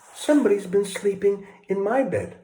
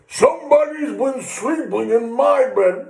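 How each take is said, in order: First: It is said in a quiet, gentle voice. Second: It is said in a big, growly voice. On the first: "in her quiet, gentle voice" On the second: "in his big, growly voice"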